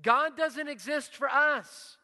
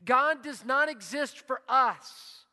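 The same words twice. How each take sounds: First: "us" rising high then falling, whole line higher and louder; slow emphatic repeat, weight on "us"; stress on us. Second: "not" drawn out and falling, slow and weighty; slow, louder line with "not" hit hard; stress on not. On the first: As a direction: lift the line and land on "us". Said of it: "Hear it?". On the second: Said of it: "let me say it like this". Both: Shown as a demonstration.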